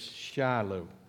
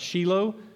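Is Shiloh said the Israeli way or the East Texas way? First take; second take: East Texas; Israeli. First: It is said with an East Texas pronunciation. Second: It is said with an Israeli pronunciation.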